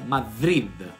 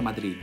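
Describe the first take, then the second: First: It ends with a soft 'th' as in 'the'. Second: It ends with a plain, hard 'd' sound. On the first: "ma si pronuncia Madrid. Ed è lo stesso suono di the" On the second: "in spagnolo non si pronuncia Madrid"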